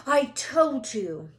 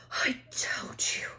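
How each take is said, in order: First: Slow, louder, stress on I; gasped, emphatic. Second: Breathless whispered gasp. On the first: Hermione scolding Harry after the chase, slow and emphatic. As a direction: lean on "I", told-you-so. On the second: Hermione gasping to Harry after the run, breathless whisper. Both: A narrator's reading. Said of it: "Hermione gasped".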